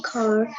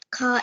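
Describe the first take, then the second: First: CAR with its final R pronounced; Indian pronunciation. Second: First CAR as "cah", without an R; British pronunciation. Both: Shown as a demonstration. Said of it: "They'll think that the different words".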